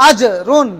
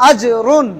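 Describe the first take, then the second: The two takes are said the same way.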